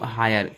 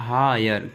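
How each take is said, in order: First: Said in the usual way. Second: "हायर" with a long हा, then यर; drawn-out demonstration. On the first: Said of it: "क्या बोलूँगा". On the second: Shown as a demonstration. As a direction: stretch "हायर" into हा...यर. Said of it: "जैसे मैं बोलूँ हायर". ("हायर" को हा...यर खींचकर)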